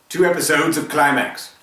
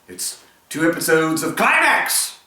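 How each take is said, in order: First: Climax is said flatly, without excitement. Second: Climax is said loudly, with excitement.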